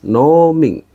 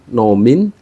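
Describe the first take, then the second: First: The first vowel is said long. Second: The first vowel is said short. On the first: The speaker calls it right. "diucapkan dengan nada yang panjang" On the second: The speaker calls it wrong. "Jadi bukan nomin"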